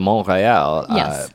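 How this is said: The name is said with a French pronunciation. The speaker calls it right. "when you do the Montréal pronunciation"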